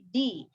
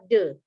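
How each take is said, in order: First: The vowel is a long, clear 'ee' sound. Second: The vowel is a short, weak 'uh' sound. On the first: The next word begins with a vowel. "bertemu huruf vokal, cara membacanya berubah menjadi di" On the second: The next word begins with a consonant. "jika di depan kata de ini ada huruf konsonan, nanti cara membacanya adalah de"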